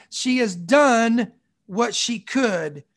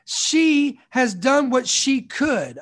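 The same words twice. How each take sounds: First: Slow, with stress on done; second pass, weight on done; slow emphatic repeat. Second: Slow, with stress on she; slow, weighty first pass; slow emphatic reading. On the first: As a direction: say it again, leaning on done. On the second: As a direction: let each word land. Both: Shown as a demonstration. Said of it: "I wanna say it again".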